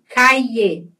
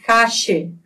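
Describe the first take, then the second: First: The double L sounds like a y. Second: The double L sounds like a zh. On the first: "com I" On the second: "na Argentina, cache. Como se fosse um J"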